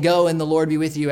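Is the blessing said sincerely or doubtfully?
sincerely. It is said as a plain, sincere blessing.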